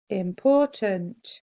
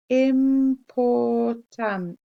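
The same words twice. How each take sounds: First: Said in the usual way. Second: Important stretched slow, each part clear; very slow spelling read of Important; sounded out slowly. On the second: Shown as a demonstration. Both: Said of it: "You can sound this one out".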